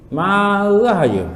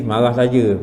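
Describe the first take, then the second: First: "Marah" stretched very long, then "saja" falling; drawn-out repeat. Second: Said in the usual way. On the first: Shown as a demonstration. Teacher chides those always angry, "Marah" long drawn out. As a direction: drag out "Marah" to mock constant anger.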